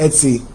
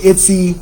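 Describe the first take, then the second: First: Etsy as "ET-see"; corrected pronunciation. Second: Etsy said as "ITT-see"; mispronounced Etsy. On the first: Host repeating the co-host's correction, Etsy pronounced "ET-see". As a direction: say Etsy with an "eh" start. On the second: Host listing online shops, Etsy mispronounced as "itsy". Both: Real, not acted. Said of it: "it's pronounced Etsy".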